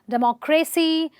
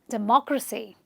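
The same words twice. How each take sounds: First: The stress is not on the second syllable. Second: The stress is on the second syllable. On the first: The speaker calls it wrong. "A lot of people say democracy" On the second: The speaker calls it right. "the actual way of saying it is democracy"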